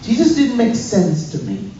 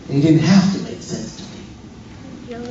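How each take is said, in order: First: Said in the usual way. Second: Slower, with weight on "have"; "have" stressed as a correction. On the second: Real, not acted. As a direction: lean on the word "have". Corrects previous line, stressing have.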